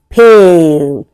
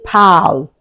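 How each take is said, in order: First: The vowel is a long 'ay' sound. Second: The vowel is short, as in 'pal'. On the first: The speaker calls it right. "which is a long vowel sound" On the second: The speaker calls it wrong. "You can't say pal"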